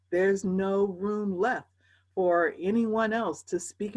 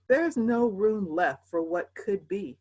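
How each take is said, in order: First: Drawn out slowly, each word weighed; slow right down on every word; very slow emphasis. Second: Said in the usual way. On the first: Real, not acted. Slowed emphatic repeat.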